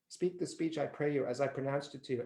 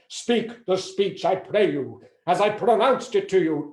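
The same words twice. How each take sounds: First: It is spoken in a quiet, shy voice. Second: It is spoken in a full, confident voice. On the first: The speaker was too shy to project. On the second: This is how the speech is meant to be delivered.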